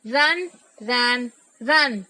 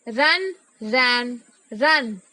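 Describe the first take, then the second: No difference in how they are said.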